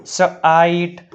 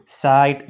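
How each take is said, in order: First: સ આઈટ split after the consonant; teacher breaking સ આઈટ into parts; sounded out. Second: Said in the usual way. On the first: Shown as a demonstration. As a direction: say સ alone, then આઈટ. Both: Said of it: "લખાય અથવા વંચાય છે".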